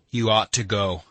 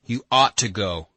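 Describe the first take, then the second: First: "ought" pressed firmly; insistent urging. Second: "ought" punched loud and long; merciless emphasis. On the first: Alyosha pressing Katya to go, insistent on "ought". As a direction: urge firmly, leaning on "ought". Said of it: "Alyosha repeated with merciless emphasis". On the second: Alyosha repeating to reluctant Katya, merciless stress on "ought". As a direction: repeat it harder, hammering "ought". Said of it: "repeated with merciless emphasis". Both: A narrator's reading.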